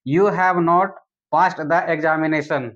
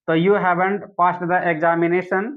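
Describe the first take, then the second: First: Slow dictation with "have not" said as two separate words; full form. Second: Slow, careful dictation with "haven't" run together as one word; contracted form. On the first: Teacher to students, dictating the uncontracted long form slowly. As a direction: stretch "have not" apart, word by word. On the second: Teacher to students, dictating the contracted form slowly. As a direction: spell out the short form "haven't" slowly for the class. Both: Shown as a demonstration. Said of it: "you will speak this sentence in another way".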